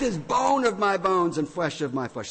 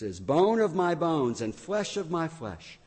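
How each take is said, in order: First: It is exclaimed in a loud, excited voice. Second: It is read in a calm, even voice. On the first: An overwhelmed, delighted exclamation. The speaker calls it right. "It's very strong. Sorry if I startled anybody" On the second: A flat, matter-of-fact remark. The speaker calls it wrong. "Do you think Adam really said it like that?"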